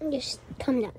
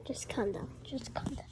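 First: Said in the usual way. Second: Soft whispered calm down; whispering. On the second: Real, not acted. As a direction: hush them in a whisper. Whispered calming after normal take.

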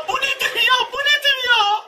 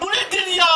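First: Disbelief. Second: Said in the usual way. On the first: Real, not acted. Repeats in disbelief, pitch up.

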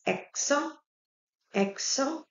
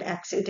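First: Accent said the French way, "ak-son"; French "ak-son" for accent, demonstrated; French pronunciation. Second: Said in the usual way. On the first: Shown as a demonstration. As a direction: end accent on a nasal "on", silent t. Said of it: "How we pronounce the word accent in French". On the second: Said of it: "How we pronounce the word accent".

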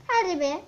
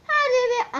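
First: Said in the usual way. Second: Impatient urging. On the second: Real, not acted. Urging the pet roll again.

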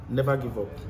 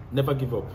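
The two takes are said the same way.

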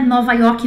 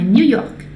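First: "Nova York" said the Portuguese way, as a wrong example; the Portuguese "Nova York" the students should avoid; wrong Portuguese form. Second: "New York" said the English way, "nu york"; French New York. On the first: Teacher to students showing the wrong name, Portuguese pronunciation. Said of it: "Não é Nova York". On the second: Teacher to students modelling how the French say it, "New York" English style. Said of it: "é assim que os franceses falam". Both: Shown as a demonstration.

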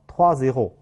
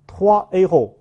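First: "toi a后" linked with a z, troi-zéro; wrong liaison. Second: "toi a后" as trois, héros with no z between; no liaison. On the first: Teacher demonstrates the mistaken reading, z linking the words. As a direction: insert a z sound joining "toi" to "a后". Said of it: "不能读成". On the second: Teacher names the words that cannot link, said separately. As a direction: keep "toi" and "a后" apart, final s silent. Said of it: "之间是不能够连诵的". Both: Shown as a demonstration.

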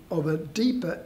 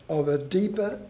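The two takes are said the same way.

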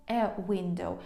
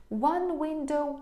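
First: Said in the usual way. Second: One window said slowly and a little higher; slow model phrase. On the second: Shown as a demonstration. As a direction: draw out "One window" for learners. (повільно, трохи вище "One window") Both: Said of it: "Тобто це одне і те ж".

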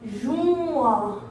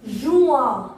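First: "Juin" with a long held vowel; "Juin" said slowly, gliding through the vowel; drawn out. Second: Said in the usual way. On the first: Shown as a demonstration. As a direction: stretch out "Juin" for learners. Teacher stretches the word for learners.

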